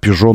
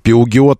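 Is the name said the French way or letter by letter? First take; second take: French way; letter by letter. First: It is two short syllables ending in 'zho'. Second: Every letter is sounded, ending in 'giot'. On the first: The speaker calls it right. "а «Пежо» нужно сказать" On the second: The speaker calls it wrong. "«Пиугиот» написано"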